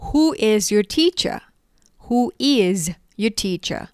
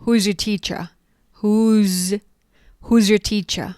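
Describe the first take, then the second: First: Slow, each word apart; slow model question. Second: "Who's your teacher" quick and linked; fast contracted form. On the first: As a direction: model it slowly for the class. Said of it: "คุณครูของคุณคือใครหรอ?". (พูดช้าๆ ทีละคำ) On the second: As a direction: squeeze it into one quick phrase. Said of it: "พูดเร็วๆ". (พูดเร็วๆ แบบย่อ) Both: Shown as a demonstration.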